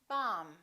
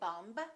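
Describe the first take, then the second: First: The final B sound is silent. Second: The final B sound is pronounced. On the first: The speaker calls it right. "we say bomb" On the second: The speaker calls it wrong. "We don't say bumb"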